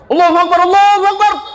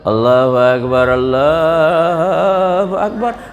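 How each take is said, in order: First: It is said loudly in a Medan accent. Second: It is said in a soft, drowsy way.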